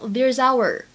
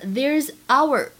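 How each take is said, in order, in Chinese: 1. 这两个词是连在一起说的。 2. 这两个词是分开说的。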